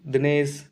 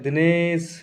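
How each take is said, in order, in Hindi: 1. स्वर सामान्य छोटी अवधि में बोला जाता है। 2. स्वर को बहुत ज़्यादा लंबा खींचा जाता है। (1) "जैसे हम किसी का नाम बोलते हैं नॉर्मली" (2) "जब उसका दूर से उसको बुलाते हैं दिनेश, तो ए बढ़ के आ रहा है"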